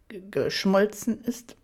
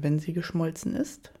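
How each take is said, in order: First: "G-, geschmolzen ist" with a nervous false start; stammered, embarrassed "geschmolzen"; flustered stammer. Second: Sly innocent question, smooth "geschmolzen"; mock-innocent teasing ask; feigned innocence. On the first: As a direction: stumble on the G of "geschmolzen" before getting it out. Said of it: "ich räusperte mich kurz". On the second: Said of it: "fragte er scheinbar unschuldig". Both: A narrator's reading.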